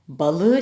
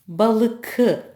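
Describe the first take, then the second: First: The consonant before the last vowel is softened. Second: The consonant before the last vowel is a hard k. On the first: The speaker calls it right. "buradaki k yumuşamıştır" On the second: The speaker calls it wrong. "balıkı olur mu? Balıkı. Hayır"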